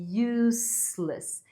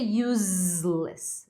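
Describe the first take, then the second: First: The first s is voiceless like an s. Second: The first s is voiced like a z. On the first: The speaker calls it right. "vai ser useless, com sonzinho de S" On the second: The speaker calls it wrong. "Não vai ser useless"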